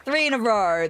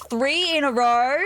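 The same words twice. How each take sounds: First: "Three in a row." said flatly with a falling tune; resigned statement. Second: "Three in a row?" asked with a rising, slow tune; disbelieving question. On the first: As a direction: confirm it, defeated. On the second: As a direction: ask it as if you can't believe it. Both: Real, not acted. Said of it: "Look, that is what?".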